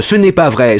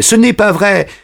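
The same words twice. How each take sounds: First: "Ce n'est pas vrai" higher, anxious but held; first "Ce n'est pas vrai" a touch shaky; nervous denial. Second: "ce n'est pas vrai" much higher, near breaking; second "ce n'est pas vrai" climbing higher in panic; panicked denial. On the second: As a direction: push "ce n'est pas vrai" up into a frightened cry. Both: Acted. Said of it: "en rougissant et en tremblant".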